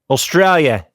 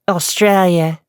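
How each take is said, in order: First: An Australian accent in the speaker's ordinary voice. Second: An Australian accent layered on a put-on character voice. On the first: "if I just wanted to talk in an Australian accent without Ashley" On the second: "can I do that while keeping this?"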